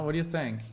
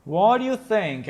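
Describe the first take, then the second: First: Softly asked aside; quiet question. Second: Louder and higher, to the audience; louder question. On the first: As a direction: ask it under your breath. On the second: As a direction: call it out to the viewers. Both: Real, not acted.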